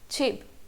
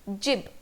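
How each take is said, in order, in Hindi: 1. यह शब्द महाप्राण "ch" ध्वनि से शुरू होता है। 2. यह शब्द घोष "j" ध्वनि से शुरू होता है। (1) "बट इसका प्रोनाउंसिएशन है छिब" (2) "अकॉर्डिंग टू रोमनाइजेशन it should be pronounced as जिब"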